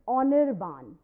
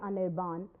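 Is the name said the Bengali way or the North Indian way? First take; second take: Bengali; North Indian. First: The name is said with Bengali pronunciation. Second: The name is said with North Indian pronunciation. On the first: The speaker calls it right. "no ma'am, it's not Anirban, it is" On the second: The speaker calls it wrong. "I from North India generally say"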